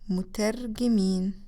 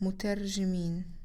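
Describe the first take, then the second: First: The middle consonant is a hard g sound. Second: The middle consonant is a soft j sound. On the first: This is the Egyptian dialect form. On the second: This is the standard Arabic form.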